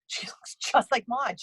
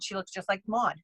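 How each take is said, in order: First: She looks just like Maude whispered through a laugh. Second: Said in the usual way. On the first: Real, not acted. Psychic repeating her Maude line to the host, laughing. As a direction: breathe it out laughing at your own joke.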